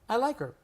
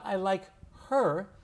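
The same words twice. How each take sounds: First: The H in 'her' is dropped. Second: The H in 'her' is clearly pronounced. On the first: The speaker calls it right. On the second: The speaker calls it wrong.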